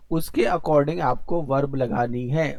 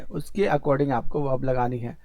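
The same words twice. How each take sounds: First: "according" drawn out and leaned on, slow and deliberate; slow emphatic rule. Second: Said in the usual way. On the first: Shown as a demonstration. Teacher drilling the rule into students, "according" slow and stressed. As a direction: spell out the rule slowly, leaning on "according".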